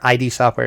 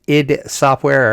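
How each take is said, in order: First: The name is spelled out as letters. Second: The name is said as one word. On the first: "I've heard it I D Software too" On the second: "It depends how you say it"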